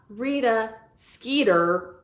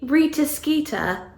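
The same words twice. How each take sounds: First: The name is said in an American accent. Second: The name is said in a British accent. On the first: The speaker calls it wrong. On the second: The speaker calls it right. "It has to be"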